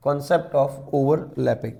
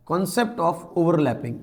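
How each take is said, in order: First: Slow, low-key heading read for notes; slow dictation. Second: Heading read out slowly for notes; slow dictation. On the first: Teacher repeating the heading slowly for students. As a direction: spell the heading out slowly word by word. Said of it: "next heading आप लगा सकते हैं". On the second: Teacher slowly dictating a heading to students. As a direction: say each word slowly so students can write it. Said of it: "next आपकी heading हो जाएगी बेटा". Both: Shown as a demonstration.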